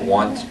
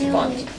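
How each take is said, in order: First: The name begins with a W sound. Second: The name begins with a V sound. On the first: The speaker calls it wrong. "it looks like want" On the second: The speaker calls it right. "Starts W, sounds like a V"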